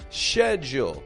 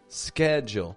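First: The word begins with an 'sh' sound. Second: The word begins with an 'sk' sound. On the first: This is the British pronunciation. "with a sh kind of sound. Much more British kind of sounding" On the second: This is the American and Canadian pronunciation. "American English, ske"

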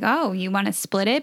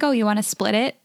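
First: It sounds like a surprised, questioning remark. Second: It sounds like a flat, matter-of-fact statement. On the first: The speaker is surprised by the offer. "But he didn't even say it like that" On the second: The speaker simply states that they will split. "he wasn't surprised by it. He was, like, stating it"

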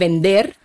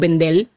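First: The syllable-final sound is a standard R. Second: The R is said as an L, Puerto Rican style.

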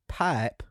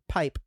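First: The word is stretched into two syllables. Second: The word is said as one syllable.

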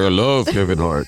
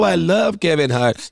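First: The voice is pitched deeper. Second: The voice is pitched higher.

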